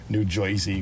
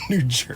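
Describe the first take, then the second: First: Jersey sounds like 'Joyzy', old New York style. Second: Jersey is said in a plain standard accent. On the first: The speaker calls it wrong. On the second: The speaker calls it right.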